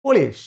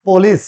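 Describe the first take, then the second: First: পুলিশ as short "po-leesh", falling; correct pronunciation. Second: পুলিশ as "po-lis" with s ending, loud; loud, full first vowel in পুলিশ; wrong pronunciation. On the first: Teacher giving students the answer, correct pronunciation. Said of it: "সঠিক উচ্চারণ হবে". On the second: Teacher citing a mistake, wrong pronunciation. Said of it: "না". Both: Shown as a demonstration.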